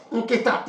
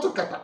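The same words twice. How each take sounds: First: Nkita said slowly with an i sound; correct Obio word. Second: Nkata cited high, with an a sound; wrong dialect word. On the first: Teacher giving the word for basket, correct word Nkita. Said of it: "is basket". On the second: Teacher correcting Obio people on basket, wrong word Nkata. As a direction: reject Nkata on a raised pitch. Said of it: "not Nkata". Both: Shown as a demonstration.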